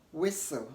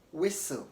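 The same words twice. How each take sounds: No difference in how they are said.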